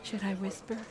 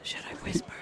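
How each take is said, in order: First: Soft, lightly voiced hushed question. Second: Hushed, breath-only whisper; voiceless whispered offer to keep it down. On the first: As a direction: ask it quietly, just above a whisper. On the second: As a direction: whisper it as a soft question. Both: Real, not acted.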